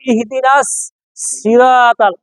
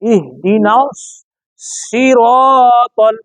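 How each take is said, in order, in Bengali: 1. 'siratal'-এর s হালকা, ঠোঁট গোল নয়। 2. 'siratal'-এর s ভারী, ঠোঁট গোল। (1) "তাহলে সিন হবে" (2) "সব সময় ঠোঁট গোল করতে হবে"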